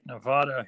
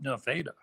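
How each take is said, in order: First: It is said the usual way for the state. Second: It is said the local Iowa town way. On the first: It names the state. "spelt like the state Nevada" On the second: It names the Iowa town. "they call it Nevada"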